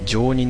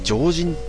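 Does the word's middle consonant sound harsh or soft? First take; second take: soft; harsh. First: The middle syllable has a soft consonant. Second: The middle syllable has a harsh voiced consonant. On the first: The speaker calls it right. "常人の方がまだソフトな感じがしていいですね。" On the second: The speaker calls it wrong. "その濁音がお、あのきつすぎてね、あんま好きじゃない。"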